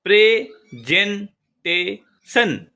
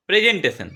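First: presentation as pray ... জেন ... টে ... শন, very slow; four spaced beats in presentation, dropping on the last; split into syllables. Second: Said in the usual way. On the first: Shown as a demonstration. (Presentation চার ভাগে ভেঙে, ধীরে) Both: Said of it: "চারটা syllable".

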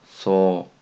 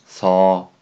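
First: Said in the usual way. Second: そ with the open, unrounded Korean eo vowel. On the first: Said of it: "日本語にもありますね". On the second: Shown as a demonstration. Teacher shows learners a sound Japanese lacks, そ with open eo. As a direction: say そ with the lips loose and open. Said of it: "発音がないですね".

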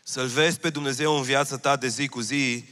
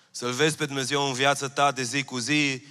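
The two takes are said the same way.

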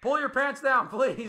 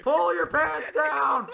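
First: Loud plea. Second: Higher, louder, stretched-out yell; slow drawn-out shout. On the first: Pleading with teammate loudly. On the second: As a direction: drag every word out in a yell. Repeated, slower shouted. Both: Real, not acted.

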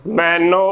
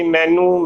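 First: ਮੈਨੂੰ said "maino", ending in o; correct o ending. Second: ਮੈਨੂੰ said "mainoo"; wrong oo ending. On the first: Teacher giving the spelt form, careful pronunciation. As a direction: end ਮੈਨੂੰ on "no", not "noo". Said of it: "ਨੰਨੇ ਨੂੰ ਹੋੜਾ ਨੋ". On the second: Teacher showing the slip, mispronunciation. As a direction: end ਮੈਨੂੰ on "noo". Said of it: "ਗਲਤ ਉਚਾਰਨ ਹੋਵੇਗਾ". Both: Shown as a demonstration.

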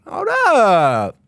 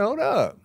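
First: Loud, high, drawn-out exclamation; excited holler. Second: High-pitched, playful exclamation; excited interjection. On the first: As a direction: holler it and stretch the last word. Repeats the reaction louder. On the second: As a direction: call it out high, without shouting. Mock reaction to exciting animation. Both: Acted.

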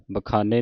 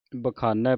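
First: ਬਖਾਨੇ ending in a closed "nay". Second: ਬਖਾਨੈ ending in an open "nai". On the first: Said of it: "ਬਖਾਨੇ ਨਹੀਂ ਪੜ੍ਹਨਾ". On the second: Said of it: "ਬਖਾਨੈ ਪੜ੍ਹਨਾ ਹੈ". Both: Shown as a demonstration.

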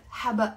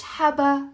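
First: حبق with the final qaf clearly sounded; correct pronunciation. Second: حبا with the final qaf dropped, ending on a bare a; wrong pronunciation. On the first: Teacher correcting learners, sounding the final qaf in حبق. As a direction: say حبق ending firmly on the q. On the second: Teacher showing learners the wrong way to say basil, dropping the final qaf. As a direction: say حبا as the mistake, no q at the end. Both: Shown as a demonstration. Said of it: "لا، غلط".

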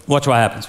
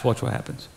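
First: Said in the usual way. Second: Whispered "watch what happens". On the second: Shown as a demonstration. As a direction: hush it like a secret.

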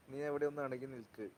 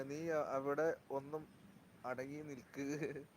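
First: Said in the usual way. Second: Slow, softer drawn-out warning; slow aside. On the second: Real, not acted. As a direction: stretch each word, hushed, to someone beside you. Telling someone nearby to stay still.

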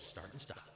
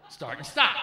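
First: Said in the usual way. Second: Mock loud. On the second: Shown as a demonstration. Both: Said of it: "that's what it was".

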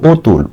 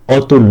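First: "অতুল" said as oh-tul; closed o-vowel. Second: "অতুল" begun with open "aw"; rejected open vowel. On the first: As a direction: round the first vowel of "অতুল" to "oh". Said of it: "ও এর মতো উচ্চারণ হচ্ছে". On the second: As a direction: say "অতুল" as aw-tul, the wrong form. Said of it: "অতুল না". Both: Shown as a demonstration.

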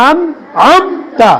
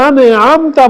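First: "আন আমতা" with আন closed on n, no e after it; correct pronunciation. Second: "আনে আমতা" with an extra e vowel after আন; mispronounced আন. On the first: Teacher correcting students' mistake, carefully pronounced "আন আমতা" without added e. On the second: Teacher showing students a common mistake, mispronounced "আনে আমতা" with added e. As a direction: say "আনে আমতা", adding an e to the first syllable. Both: Shown as a demonstration. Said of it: "আনে হবে না".

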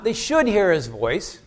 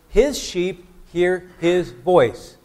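First: "should" lifted with a rising tune; mock the weaker "should" reading; contrasting wrong version. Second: Slow, stressed "His sheep hear his voice", each word weighted; preacher driving home "His sheep hear his voice"; emphatic statement. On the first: Preacher to congregation, contrasting rejected wording. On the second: Preacher to congregation, slow emphatic statement. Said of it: "he made the emphatic statement". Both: Shown as a demonstration.

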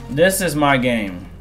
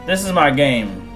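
The two takes are said the same way.

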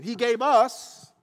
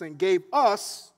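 First: "us" slow and loud; preacher repeating the verse to press the word "us"; stress on us. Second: "us" drawn out slowly and leaned on; slow down and land hard on "us"; preacher slowing to press the word "us"; stress on us. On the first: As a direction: lean on "us" slowly. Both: Shown as a demonstration. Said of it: "I'm just gonna point that out".

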